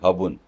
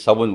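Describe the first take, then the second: First: The word begins with an h sound. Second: The word begins with an s sound. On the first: The way local speakers in that region say it. "वो बोलेंगे" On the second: The usual way most speakers say it. "आप बोलोगे"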